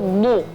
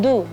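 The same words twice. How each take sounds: First: The consonant is thick and heavy. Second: The consonant is thin and light. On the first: The speaker calls it right. "suara dad yang tebal" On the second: The speaker calls it wrong. "bukan du"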